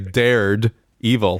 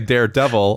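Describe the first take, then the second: First: It is said as dared, then evil. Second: It is said as the single word daredevil. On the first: Someone once challenged evil, in the past tense. "or you could say Dared Evil, like past tense" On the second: It names the fearless comic hero. "You could say Daredevil"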